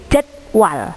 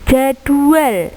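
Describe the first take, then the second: First: The middle has a w glide sound. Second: The middle has a u vowel sound. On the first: This is the standard form. The speaker calls it right. "tapi pakainya adalah w" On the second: This is the non-standard form. The speaker calls it wrong. "Jadwal itu tidak baku, bukan pakai u"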